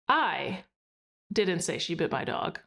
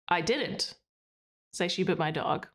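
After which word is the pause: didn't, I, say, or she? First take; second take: I; didn't. First: There is a pause after the word I. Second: There is a pause after the word didn't. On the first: "pausing after I" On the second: "and then pause after didn't"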